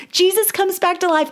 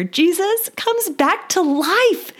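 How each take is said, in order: First: Much higher, faster, falling on "life"; joyful restatement; quicker joyful repeat. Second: Much higher, slow and drawn out, rising at the end; slow joyful announcement. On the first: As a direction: repeat "Jesus comes back to life" briskly with a firm fall. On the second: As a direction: savour "Jesus comes back to life" slowly, lifting on "life". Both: Real, not acted. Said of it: "I can't contain it".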